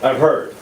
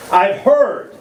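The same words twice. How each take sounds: First: Said in the usual way. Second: The second "heard" leaned on; mock knowing repeat. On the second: Shown as a demonstration. Repeating the rumour to the crowd, knowing emphasis.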